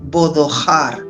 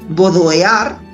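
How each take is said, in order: First: A breathy h sound comes before the ending. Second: A vowel sound comes before the ending. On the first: The speaker calls it right. "lo has de pronunciar, Rubén, con H" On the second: The speaker calls it wrong. "cuando yo pongo el tipo de E, bodoear, pues me suena muy raro"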